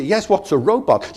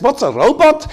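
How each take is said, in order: First: Said in the usual way. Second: High, loud incredulous echo of the question; the driver can't believe the question; astonished echo. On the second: Retold or imitated. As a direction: bounce it back in disbelief.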